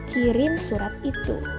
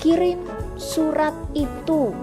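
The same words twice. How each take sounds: First: The words are said at normal length. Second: The words are stretched out and drawn long. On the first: The command sounds more polite. The speaker calls it right. "Ketimbang misalnya" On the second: The command sounds impolite. The speaker calls it wrong. "itu cenderung tidak tidak santun karena intonasinya yang dipanjangkan"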